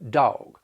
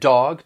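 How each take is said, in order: First: The vowel glides into a stretched diphthong. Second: The vowel is short and plain.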